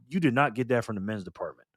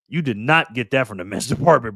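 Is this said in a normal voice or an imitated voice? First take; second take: normal; imitated. First: It is said in an ordinary, natural voice. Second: It is said in an imitated, put-on voice.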